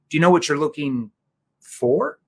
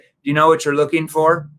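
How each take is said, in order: First: The question is slowed, stressing the final word. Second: The question is asked at a normal pace. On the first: The speaker calls it right. "if I slow that down. See the tonality here. See that curiosity there at the very end? I'm emphasizing for" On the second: The speaker calls it wrong. "If you just said"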